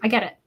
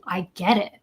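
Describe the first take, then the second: First: It is said plainly, without empathetic emphasis. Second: It is said warmly, with empathetic emphasis. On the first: "as opposed to" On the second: "I more think of, of someone saying"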